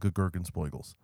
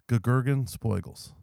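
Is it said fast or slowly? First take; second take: fast; slowly. First: It is said at normal, quick speed. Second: It is said more slowly.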